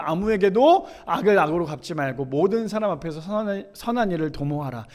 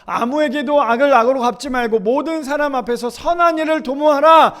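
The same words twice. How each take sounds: First: Said in the usual way. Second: High, loud pulpit reading; scripture proclamation. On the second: Acted. Preacher reads verse seventeen to the congregation, proclaiming loudly. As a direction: build to a forceful final command.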